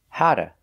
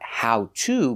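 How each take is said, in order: First: The words blend quickly into 'hara' with flapped T. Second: Each word is said fully and separately. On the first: The speaker calls it right. "but how to" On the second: The speaker calls it wrong. "Not how to"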